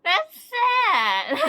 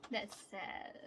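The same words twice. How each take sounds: First: Loud, high fake-crying wail; mock wail. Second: Said in the usual way. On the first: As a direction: ham up the heartbreak. Got an unwanted member again.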